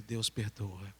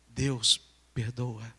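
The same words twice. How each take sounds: First: Low, soft statement, no pause; gentle answer. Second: "Deus perdoa" asked low and very slowly, drawn out; grave question. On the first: Boy answering the burdened girl, soft low reply. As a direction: answer quietly, letting the voice fall. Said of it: "E eu disse pra ela". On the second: Burdened girl asking about forgiveness, grave slow question on "Deus perdoa". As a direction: ask "Deus perdoa" haltingly, word by word. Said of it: "me fez a seguinte pergunta". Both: Retold or imitated.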